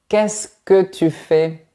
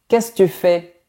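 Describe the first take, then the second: First: The word 'que' is clearly pronounced. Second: The word 'que' is dropped or swallowed. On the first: This is the correct standard form. "au lieu de" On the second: This is the casual everyday form. "tu entendras"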